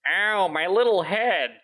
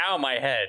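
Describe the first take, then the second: First: High, slow hammy dub voice; overacted anime dub. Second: Said in the usual way. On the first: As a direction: whine it like a cheesy dub actor. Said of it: "the dub voice goes". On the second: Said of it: "not just".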